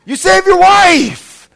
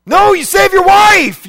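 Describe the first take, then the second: First: Loud, high, slowed shout on YOUR; slow shouted repeat. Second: Loud emphatic shout, high; shouted answer. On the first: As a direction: hammer home each word. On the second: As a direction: shout it out to the crowd. Preacher shouts answer to dilemma. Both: Acted.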